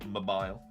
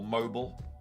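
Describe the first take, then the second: First: It is said with a British pronunciation. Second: It is said with an American pronunciation.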